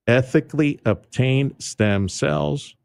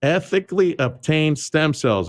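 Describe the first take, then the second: First: Ethically obtained stem cells, slow and deliberate; emphasized words. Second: Ethically obtained stem cells, slower and higher; emphasized again. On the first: Host stressing the clinic's selling point, slow and deliberate. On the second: Host repeating the clinic's slogan, deliberate and slow. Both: Shown as a demonstration. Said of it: "I like to emphasize the words".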